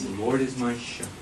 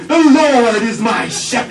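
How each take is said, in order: First: The sentence is said quietly and softly. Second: The sentence is said loudly and forcefully. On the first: Reading this way keeps focus without disturbing others. The speaker calls it right. "find a quiet place" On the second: Reading this way can disturb others nearby. The speaker calls it wrong. "You don't have to read it out loud, so loudly"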